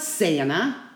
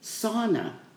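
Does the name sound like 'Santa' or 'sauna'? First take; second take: Santa; sauna. First: The name sounds like the word Santa. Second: The name sounds like the word sauna. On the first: The speaker calls it wrong. "It's not Santa" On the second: The speaker calls it right. "It's sauna"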